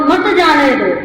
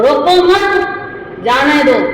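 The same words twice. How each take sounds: First: मत जाने दो as one phrase; मत joined to जाने दो. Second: Slow रोको मत, pause, then जाने दो; pause after मत. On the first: Teacher showing how meaning flips, मत grouped with जाने दो. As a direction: run मत straight into जाने दो without a break. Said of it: "यहां कोमा लगाया". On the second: Teacher showing the comma's second place, रोको मत held together before a pause. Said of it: "मत के बाद कोमा लगाए". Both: Shown as a demonstration.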